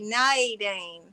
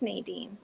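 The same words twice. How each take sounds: First: The name is said in a Southern accent. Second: The name is said in a neutral accent. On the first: This is how people in the South said the name. "when I grew up in the South, they would say Nadine" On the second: This is how the owner says the name. "that's how you say my name"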